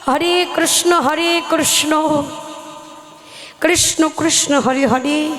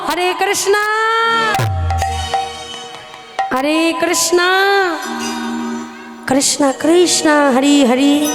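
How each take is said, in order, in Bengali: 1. এটি বাঙালি উচ্চারণে বলা হয়েছে। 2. এটি বিদেশি উচ্চারণের অনুকরণে বলা হয়েছে। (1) "আমরা তো মুখে ঠিকঠাকভাবে মা উচ্চারণটা করতে পারি" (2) "তারা মুখে ঠিকঠাক উচ্চারণটা করতে পারে না। তারা কি বলে জানো?"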